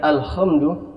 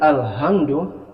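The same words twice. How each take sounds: First: The h is a rasping kh sound. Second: The h is a light, plain breath. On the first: "bukan Kh" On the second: "bukan H"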